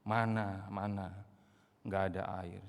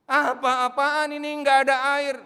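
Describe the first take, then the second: First: A low, muttered grumble; grumbling. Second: Loud, high indignant outburst; angry complaint. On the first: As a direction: complain under your breath. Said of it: "grumbling, mengeluh, dumel". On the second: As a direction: shout your outrage that there is no water. Israelites complaining about water. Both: Retold or imitated.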